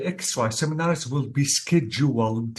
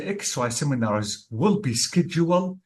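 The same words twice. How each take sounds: First: "scheduled" ending in an audible d. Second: "scheduled" said as "schedule", final d left off; scheduled without D. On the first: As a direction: sound the final d of "scheduled". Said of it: "will be scheduled with D". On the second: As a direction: drop the closing d sound of "scheduled". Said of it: "this is wrong". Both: Shown as a demonstration.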